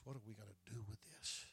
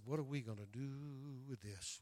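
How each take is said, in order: First: The question again, much softer; quiet repeat. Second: Said in the usual way. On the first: Retold or imitated. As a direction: let it sink to a hushed echo.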